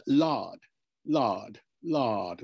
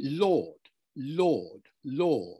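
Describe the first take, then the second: First: "lard" with an open back "ah" vowel, as 1910s RP said Lord; old RP Lord. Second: "Lord" with a long rounded O sound and no R, as in "Law"; modern RP Lord. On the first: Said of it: "with an R sound". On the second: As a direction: say "Lord" like present-day RP, rounded "aw". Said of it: "with an O sound". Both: Shown as a demonstration.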